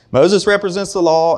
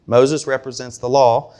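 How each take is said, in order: First: Moses represents the law, higher and louder; emphatic restatement. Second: Said in the usual way. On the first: Shown as a demonstration. Restating it to the congregation, high and loud.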